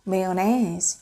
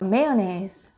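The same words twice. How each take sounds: Both takes have the same delivery.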